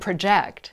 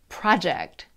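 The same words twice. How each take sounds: First: The stress is on the second syllable. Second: The stress is on the first syllable. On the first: It is used as a verb. "But two-syllable verbs usually have the second syllable stressed" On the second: It is used as a noun. "Two-syllable nouns usually have the first syllable stressed"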